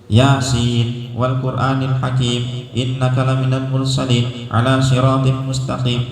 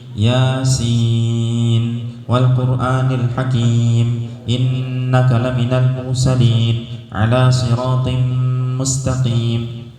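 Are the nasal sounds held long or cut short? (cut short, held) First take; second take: cut short; held. First: Fast, with the nasal sounds cut short. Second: Fast, but the nasal sounds are fully held. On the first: The speaker calls it wrong. "hilang semua tajwidnya, salah juga" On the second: The speaker calls it right. "Dia ce cepat. Cepat bacaannya ya"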